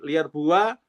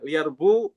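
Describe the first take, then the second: First: The word ends with an added 'wa' syllable. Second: The word ends on a long 'oo' vowel.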